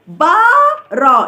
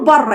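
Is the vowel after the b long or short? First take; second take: long; short. First: The vowel after the b is drawn out long. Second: The vowel after the b is short and quick. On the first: "النطق بتاعها الصحيح اسمها الى بارا، يعني المد بالالف" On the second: "ما عندناش وقت ان احنا لسه هنطول في الكلمه"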